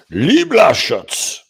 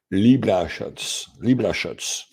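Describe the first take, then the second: First: Loud, high, drawn-out proclamation of the name; with authority. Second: Said in the usual way. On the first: Real, not acted. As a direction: belt the name out commandingly. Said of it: "now I say it with authority".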